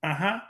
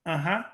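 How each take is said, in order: Both takes have the same delivery.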